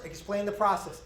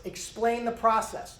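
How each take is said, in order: First: Said in the usual way. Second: "Explain the process" said slower, each word weighted; slow emphatic repeat. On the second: Shown as a demonstration. Instructor repeating the key point to trainees, slowly. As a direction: drive "process" home slowly.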